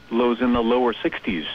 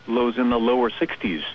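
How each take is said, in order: Both takes have the same delivery.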